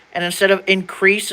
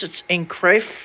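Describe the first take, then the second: First: Said in the usual way. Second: "increase" said "increafe" with an F at the end; long-s reading. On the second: Shown as a demonstration.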